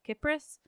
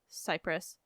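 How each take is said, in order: First: The word begins with a hard k sound. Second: The word begins with a soft s sound. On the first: It names the goddess in ancient Greek. "her name with a hard" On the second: It names the country and island. "pronounce the country and island with a soft C"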